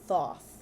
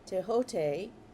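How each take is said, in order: First: The name is said as spelled, 'Thoth'. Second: The name is said as 'Tehote'.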